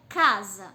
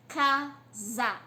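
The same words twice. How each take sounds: First: Said in the usual way. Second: "Casa" split as "ca... sa", pause between; syllable by syllable. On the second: Shown as a demonstration. Teacher counting syllables for pupils, "Casa" split in two. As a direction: sound out "Casa" in two full, separate beats. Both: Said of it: "Tem duas sílabas".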